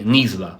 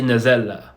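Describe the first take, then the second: First: The z and the l are pushed together. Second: A vowel separates the z and the l. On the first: The speaker calls it right. "You you say nizla. So you you push it together" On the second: The speaker calls it wrong. "So you don't say nizella"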